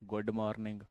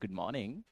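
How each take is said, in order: First: It is said in a plain Indian accent. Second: It is said in a put-on foreign accent. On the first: "लेट्स बैक टू इंडिया" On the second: "हाउस माय एक्सेंट?"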